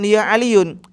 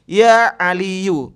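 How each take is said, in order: First: The name ends with an added n sound. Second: The name ends in a plain vowel, without n. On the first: The speaker calls it wrong. "bukan ya Aliyun" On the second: The speaker calls it right.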